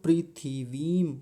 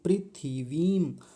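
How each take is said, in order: No difference in how they are said.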